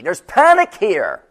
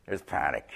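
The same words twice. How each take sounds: First: Panicked. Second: Much lower and softer, settling; low murmured restatement; quiet echo. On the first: Acted. Voicing disciples in the storm. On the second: Shown as a demonstration. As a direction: say it softly, stepping out of the panic.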